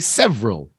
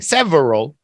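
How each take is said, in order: First: The word is squeezed into two syllables. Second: The word is said with three full syllables. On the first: "they just say several" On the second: "Most people don't say several"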